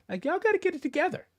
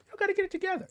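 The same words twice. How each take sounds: First: High, fast scolding; quick high exasperated plea. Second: Even higher, strained repeat; high strained exasperated repeat. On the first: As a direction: rattle it off high in disbelief. Scolding commenters. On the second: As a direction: squeeze it out high and tight. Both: Real, not acted.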